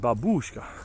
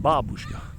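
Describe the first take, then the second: First: The stress falls on the u vowel. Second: The stress falls on the a vowel. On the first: The speaker calls it wrong. "We emphasize the u" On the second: The speaker calls it right. "it's the A that's emphasized"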